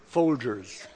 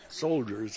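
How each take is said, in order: First: Folgers said with a clear FOL and hard g; Folgers, the coffee brand name, spoken lightly. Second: Soldiers said low and soft with a soft dj; soldiers, the boy's mix-up, said dropping low. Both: Shown as a demonstration. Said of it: "He had it mixed up a little bit".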